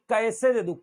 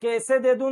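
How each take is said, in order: First: कैसे as "ka-ese"; gliding first syllable in कैसे; correct double vowel. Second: कैसे as "kese"; no glide in the first vowel of कैसे; wrong single vowel. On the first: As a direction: open कैसे on "a" and slide to "e". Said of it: "क ऐसे". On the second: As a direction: say कैसे with a pure "e". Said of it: "कैसे दे दूं नहीं". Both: Shown as a demonstration.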